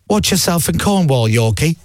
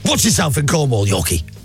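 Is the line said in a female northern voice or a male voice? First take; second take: female northern; male. First: It is said in a female northern voice. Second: It is said in a natural male voice. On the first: A phone assistant is reading the text aloud. "I've changed my Siri to a female northern accent" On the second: The texter himself is saying it. "That works in [name]'s voice"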